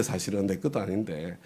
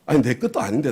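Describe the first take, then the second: First: 것도 said again, softer and lower; quiet restatement. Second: 것도 lifted with a rising tune; stress on 것도. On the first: Pastor softly repeating 것도 to the congregation. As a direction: drop the voice on 내 것도 아닌데. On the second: Pastor stressing 것도 to the congregation, rising. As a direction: lean on 것도 as if surprised. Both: Shown as a demonstration.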